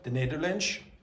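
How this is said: The word ends with a sh sound. "use a sh very often in place of s"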